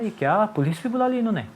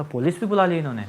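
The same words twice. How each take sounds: First: High, startled disbelief; shocked surprise. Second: A touch of retold disbelief; mild surprise. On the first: Retold or imitated. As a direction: gasp it out, caught off guard. (ऊँची आवाज़ में चौंककर हैरानी) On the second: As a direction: repeat it calmer, half amused. (हल्की सी दोहराई हुई हैरानी) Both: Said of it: "मेरे को बड़ा आश्चर्य हुआ".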